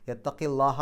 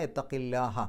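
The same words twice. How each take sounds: First: യത്തക്കില്ലാഹ with a heavy, full ല്ലാഹ, ending in a rise; wrong pronunciation. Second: യത്തക്കില്ലാഹ with a light, thin ലാഹ, falling at the end; correct pronunciation. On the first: Teacher shows the mistaken heavy ലാഹ in യത്തക്കില്ലാഹ. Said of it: "എന്ന് പറയില്ല". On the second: Teacher gives the correct thin ലാഹ in യത്തക്കില്ലാഹ. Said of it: "ലാഹ എന്നുള്ള ഉച്ചാരണം കിട്ടും". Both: Shown as a demonstration.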